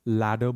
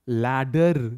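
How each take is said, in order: First: The final R sound is left silent. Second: The final R sound is clearly pronounced. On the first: The speaker calls it right. "लैडर बोलते हैं" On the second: The speaker calls it wrong. "लैडर नहीं बोलते"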